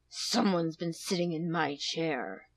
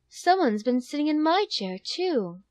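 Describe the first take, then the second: First: It is growled in a big, deep voice. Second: It is said in a soft, gentle voice.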